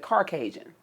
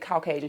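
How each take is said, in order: First: It is said with an added R sound. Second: It is said without an R sound.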